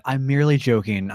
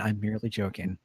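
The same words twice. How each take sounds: First: Laughing it off. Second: Softer reassurance. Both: Acted. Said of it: "I laugh".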